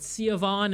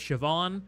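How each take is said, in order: First: The name is said in a mangled, non-Irish way. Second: The name is said in its native Irish way. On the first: The speaker calls it wrong. "butchered pronunciations of Irish names" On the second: The speaker calls it right. "instead of Siobhan"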